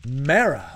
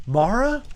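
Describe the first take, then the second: First: "Mara" as MAIR-uh, first vowel as in mare. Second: "Mara" as MAR-uh with a broad ah like in car. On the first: Streamer contrasts the other Mara, like a horse mare. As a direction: say "Mara" with the air vowel, falling. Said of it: "Where Mara". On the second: Streamer argues the name Mara should sound like mar plus a. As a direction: stretch the open ah in "Mara", rising. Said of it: "when I'm saying Mara". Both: Shown as a demonstration.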